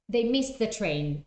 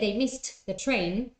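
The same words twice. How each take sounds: First: The t in 'missed' is dropped. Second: The t in 'missed' is clearly pronounced. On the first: The speaker calls it right. "It's much simpler" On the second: The speaker calls it wrong. "if you say they missed the train, again, it feels awkward"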